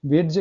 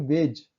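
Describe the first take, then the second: First: वेज with a d sounded before the j, "wed-j"; pronounced d. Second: वेज with no separate d, "wej"; silent d. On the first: Teacher showing students the mistake, d sounded in वेज. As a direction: put a hard d into वेज. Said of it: "वेज कहाँ नहीं पढ़ रहे हैं". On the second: Teacher correcting for students, silent d in वेज. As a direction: say वेज with just a j ending. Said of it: "only वेज". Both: Shown as a demonstration.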